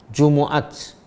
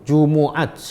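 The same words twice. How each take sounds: No difference in how they are said.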